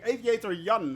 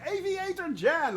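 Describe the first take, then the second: First: Jan said as "Yun", with a Y; Y sound in Jan. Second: Jan said with a hard English J; "Jan" starting as in "jam". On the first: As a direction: say "Jan" the European way, starting with y. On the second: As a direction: say "Jan" like the English name, with a j sound. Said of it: "Aviator Jan, actually". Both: Real, not acted.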